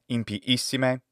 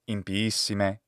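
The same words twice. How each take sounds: First: A glottal stop splits the two i vowels. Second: The two i vowels flow together without a break. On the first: The speaker calls it wrong. "she adds a glottal stop between the two letters I ... Impiissime is wrong" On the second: The speaker calls it right. "Impiissime is right"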